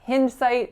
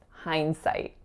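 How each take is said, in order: First: The first vowel does not sound like 'behind'. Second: The first vowel sounds like the one in 'behind'. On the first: The speaker calls it wrong. "it's not hindsight" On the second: The speaker calls it right. "think of the word behind"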